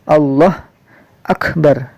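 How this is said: There is a pause between the two words. The speaker calls it wrong. "tidak boleh waqaf, tidak boleh Allah akbar"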